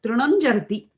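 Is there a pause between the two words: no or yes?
no. The two words run together without a break. The speaker calls it right. "When you're saying it itself, it comes out"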